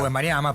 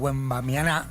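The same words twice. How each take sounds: First: The stress is not on the last syllable. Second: The stress is on the last syllable. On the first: This is the habitual local way of saying it. The speaker calls it wrong. "Nosotros decimos Wembanyama" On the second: This is how the player himself says it. The speaker calls it right. "se encarga de ponerle el acento a la última A"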